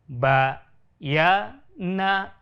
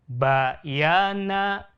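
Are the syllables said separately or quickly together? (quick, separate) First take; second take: separate; quick. First: The syllables are said slowly with breaks between them. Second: The syllables are said a little faster, more joined. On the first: "suara kita diputus atau dengan ditekan" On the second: "Lebih cepat sedikit"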